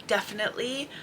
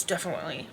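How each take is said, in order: First: "definitely" said clearly, every syllable sounded; careful pronunciation. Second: "definitely" softly mumbled, middle syllables blurred; slurred pronunciation. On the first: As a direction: give each syllable of "definitely" its full sound, firmly. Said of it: "I need to say". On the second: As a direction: trip softly over "definitely", sounds running together. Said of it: "spoke over my words". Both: Shown as a demonstration.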